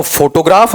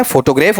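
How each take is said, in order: First: फोटोग्राफ with an open aa at the end; first option. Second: फोटोग्राफ with an e vowel at the end; second option. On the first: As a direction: say फोटोग्राफ as "photo-graaf". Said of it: "फोटोग्राफ होता है, फोटोग्राफ होता है". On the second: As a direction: say फोटोग्राफ as "photo-grayf". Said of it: "क्या होता है". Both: Shown as a demonstration.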